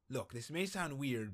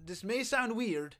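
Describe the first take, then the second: First: Said in the usual way. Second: A light, higher character voice for the line. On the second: Acted. Streamer reading the hitman's line in a light character voice.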